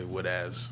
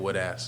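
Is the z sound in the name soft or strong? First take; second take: strong; soft. First: The z sound is strong and clearly emphasized. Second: The z sound is soft and barely heard. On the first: The speaker calls it right. "say would as" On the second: The speaker calls it wrong. "people don't emphasize the Z"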